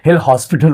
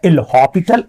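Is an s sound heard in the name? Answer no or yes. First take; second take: yes; no. First: The name is said with an s sound. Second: The name is said without an s sound. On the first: The speaker calls it wrong. "बहुत सारे बच्चे एल हॉस्पिटल rule पढ़ते हैं" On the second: The speaker calls it right. "सही सही pronunciation होता है एल हॉपिटल, ए silent होता है"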